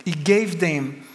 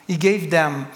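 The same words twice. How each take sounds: The two takes are said the same way.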